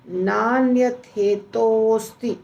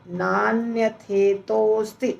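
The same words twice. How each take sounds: First: The words are fused into one long word. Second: The same.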